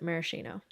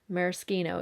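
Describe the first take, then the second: First: The word is pronounced the American way. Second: The word is pronounced the Italian way. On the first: "Americans pronounce it maraschino" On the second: "because it's an Italian word"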